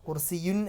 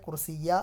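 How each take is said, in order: First: The word ends in the sound un. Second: The word ends in the vowel a. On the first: "കുർസിയുൻ എന്നല്ല വരിക" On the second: "കുർസിയ അല്ല വരിക"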